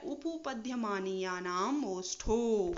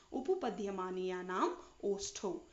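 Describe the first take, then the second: First: उपपद्यमानीयानाम ओष्ठो recited slowly, syllable by syllable; slow sutra recitation. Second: Said in the usual way. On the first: Shown as a demonstration. Teacher to students, slowly reciting the lip sutra. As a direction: lay the long sutra out slowly so it can be followed. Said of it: "देखिए, उपु". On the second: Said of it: "एक साथ बोलेंगे".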